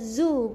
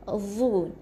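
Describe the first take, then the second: First: It begins with a hissing z sound. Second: It begins with a tongue-between-teeth dh sound. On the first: The speaker calls it wrong. "bukan zu, bukan huruf z" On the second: The speaker calls it right. "Lidah keluarkan"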